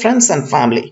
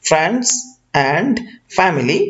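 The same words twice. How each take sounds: First: The d sound in 'and' is dropped. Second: The d sound in 'and' is pronounced. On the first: The speaker calls it right. "বলা হচ্ছে" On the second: The speaker calls it wrong. "এটা না বলে"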